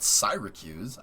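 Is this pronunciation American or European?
European. The word is said the European way. The speaker calls it wrong. "not Syracuse"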